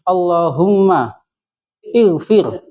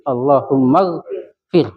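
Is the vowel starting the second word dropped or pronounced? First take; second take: pronounced; dropped. First: The words are separated, with the vowel pronounced. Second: The words are joined, with the vowel dropped. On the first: "terus kita putus" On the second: "kalau kita sambungkan"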